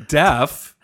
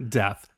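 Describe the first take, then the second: First: "Deaf" with a firm f at the end; emphatic f ending on "Deaf"; corrected pronunciation. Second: "deaf" ending in a th sound; soft th at the end of "deaf"; slipped pronunciation. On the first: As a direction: say "Deaf" louder, landing on the f. Corrects the word's last sound. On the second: Says it with th, then corrects. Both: Real, not acted.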